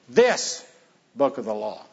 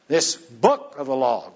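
First: The word "this" carries the emphasis. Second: The word "book" carries the emphasis. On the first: It was that specific book, present with him. "Did Joshua have it there with him?" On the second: It was called a book, not a tablet or scroll. "God called it a book"

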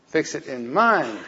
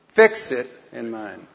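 First: The word 'mind' is said loudest. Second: The word 'fix' is said loudest.

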